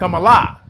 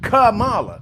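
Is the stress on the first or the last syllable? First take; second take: last; first. First: The stress is on the last syllable. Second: The stress is on the first syllable. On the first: This is how the name's owner and others say it. "They, they're putting the accent at the end on the L A" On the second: This is how the speaker's own community says the name. "we put the emphasis first on the on the accent or the accent on the on the first part of the word"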